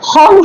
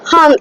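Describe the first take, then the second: First: The vowel is a rounded o sound. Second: The vowel is an open a sound. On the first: This is the Bengali-style reading. The speaker calls it wrong. "হম হয় না" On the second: This is the true Sanskrit reading. The speaker calls it right. "এইচ এ এম"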